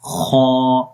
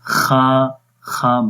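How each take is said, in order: First: The letter is said heavy, with a full vowel. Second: The letter is said thin, with a light vowel. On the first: The speaker calls it right. "मोटा पढ़ेंगे। खौ, मुंह खोलकर पढ़ेंगे।" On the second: The speaker calls it wrong. "बारीक नहीं पढ़ना"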